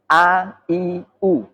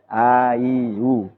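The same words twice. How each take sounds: First: Each vowel starts with a clear glottal catch. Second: Each vowel starts softly without a glottal catch. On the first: The speaker calls it right. "Harus a, i, u" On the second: The speaker calls it wrong. "enggak boleh ... jangan sampai ngambang atau tashil"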